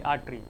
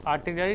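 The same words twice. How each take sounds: First: आर्टरी said short as "aat-ri" with no ला syllable; teacher stating the right word आर्टरी plainly as "aat-ri"; correct word shown. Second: आर्टिलरी said as the mistaken "aa-ti-la-ri" with the extra ला syllable; teacher sounding out the wrong word आर्टिलरी as "aa-ti-la-ri"; wrong word shown. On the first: Heart lesson, teacher correcting students to the proper short आर्टरी, "aat-ri". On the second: Heart lesson, teacher showing students the common slip आर्टिलरी with its extra "la" syllable. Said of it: "आर्टिलरी नहीं". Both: Shown as a demonstration.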